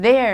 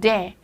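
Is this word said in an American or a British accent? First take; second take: American; British. First: It is said in an American accent. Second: It is said in a British accent.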